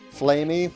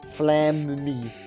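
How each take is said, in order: First: The first syllable sounds like 'flame'. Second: The first syllable sounds like 'flam'. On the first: The speaker calls it wrong. "Since no fire, flame" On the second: The speaker calls it right. "there's two M's, so that makes it Flam"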